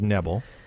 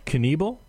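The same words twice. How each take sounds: First: The initial K is silent. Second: The initial K is pronounced. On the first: "I thought it was a soft K" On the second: "and now, it's Knebel?"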